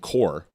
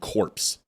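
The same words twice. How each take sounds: First: The word ends like core, P and S silent. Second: The word ends like corpse, P and S sounded. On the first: The speaker calls it right. "you may say Marine Corps" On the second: The speaker calls it wrong. "It's not Marine Corps. A corpse is C O R P S E"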